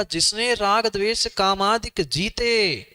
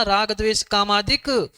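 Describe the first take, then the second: First: Slow reading with the phrase closing after जीते; no break before जीते, full stop after it; जीते joined to कामादिक. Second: Higher-pitched reading halting right after कामादिक; stop after कामादिक. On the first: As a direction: run कामादिक straight into जीते, then stop. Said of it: "वहां comma नहीं है". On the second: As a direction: end the phrase on कामादिक, leaving out जीते. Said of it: "यही रुकना बेटा". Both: Shown as a demonstration.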